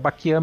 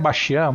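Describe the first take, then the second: First: The middle of the name has a 'k' sound. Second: The middle of the name has an 'st' sound. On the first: This is the form friends have always used. "é Baquian mesmo" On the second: This is the official form of the name. "o certo é Bastian"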